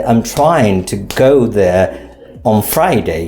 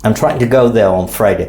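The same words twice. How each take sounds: First: I'm trying to go there on Friday with clear beats on try, go, Fri, unhurried; heard beat, slower take. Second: I'm trying to go there on Friday said fast, beats on try, go, Fri; heard beat, fast take. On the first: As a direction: tap out each beat slowly. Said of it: "you can hear the beat". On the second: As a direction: run it quickly but keep the beats. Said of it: "You see the beat here?". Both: Shown as a demonstration.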